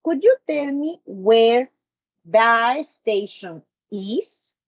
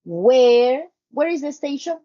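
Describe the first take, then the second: First: Slow, careful polite question, "is" at the end; polite indirect question. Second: Rising direct question; direct question tune. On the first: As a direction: ask it politely and slowly. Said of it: "Look at this". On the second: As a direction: ask it straight, rising at the end. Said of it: "now check". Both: Shown as a demonstration.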